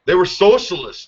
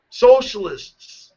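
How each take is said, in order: First: Said in the usual way. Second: Socialists stretched slow and pitched high; drawn-out emphasis. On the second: Shown as a demonstration.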